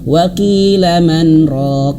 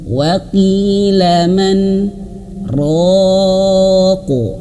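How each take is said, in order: First: It runs straight through without any stop. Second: It stops briefly after man without breathing. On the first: The speaker calls it wrong. "diterabas ... dilangsungkan" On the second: The speaker calls it right. "Gitu aja"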